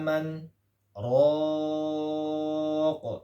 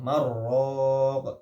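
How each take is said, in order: First: A brief stop separates man from raq. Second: The n merges into r with no stop. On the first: "yaitu dengan sakta" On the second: "Di torik yang lain idgham"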